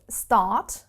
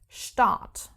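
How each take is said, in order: First: The word begins with a plain 'st' sound. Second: The word begins with an 'sht' sound. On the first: "let's take the word start" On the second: "the pronunciation is not like in English"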